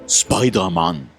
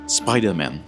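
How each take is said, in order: First: It is said with a Japanese accent. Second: It is said with an English accent.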